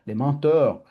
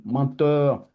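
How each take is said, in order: First: «mentors» rectifié, le o bien marqué; «mentors» corrigé après «menteurs», un peu plus fort; correction. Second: «menteurs» dit lentement, un lapsus pour mentors; «menteurs» prononcé comme le mot menteur, avec l'accent italien; accent italien. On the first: (se reprend et dit «mentors» clairement) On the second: («menteurs» au lieu de «mentors», en traînant) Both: Real, not acted. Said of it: "ma prononciation me joue des tours, mon accent italien".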